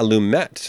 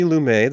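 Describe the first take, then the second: First: Lumet said loo-MET, final T clearly sounded. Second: Lumet said loo-MAY, final T dropped; Lumet without the T. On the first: Shown as a demonstration. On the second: Real, not acted. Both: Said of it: "he does pronounce the T".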